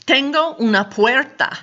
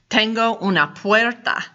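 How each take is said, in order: First: Raised pitch. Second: Said in the usual way. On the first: Shown as a demonstration.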